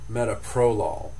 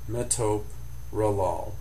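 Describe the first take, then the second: First: The stress falls on a shifted syllable. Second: The stress falls on the standard syllable. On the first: The speaker calls it wrong. "with the accent in the wrong place" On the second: The speaker calls it right. "it's actually four syllables"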